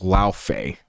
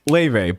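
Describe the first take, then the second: First: The name is said like 'Lao Fei'. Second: The name is said like 'Leve'. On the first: It names the game character. "It's Lao Fei" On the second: It names the real singer. "her name is pronounced [name]"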